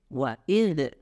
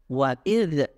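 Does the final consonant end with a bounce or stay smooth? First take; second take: bounce; bounce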